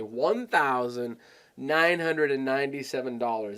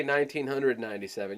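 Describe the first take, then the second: First: "one thousand nine hundred and ninety-seven" in full, deliberate parts; spelled-out big price. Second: "nineteen hundred ninety-seven" run together quickly; quick, compact price. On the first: Coach showing how to make "one thousand nine hundred and ninety-seven" sound like a lot, deliberate. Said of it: "when you say it like that". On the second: Coach showing how not to quote "nineteen hundred ninety-seven", quick and compact. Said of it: "you don't wanna say". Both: Shown as a demonstration.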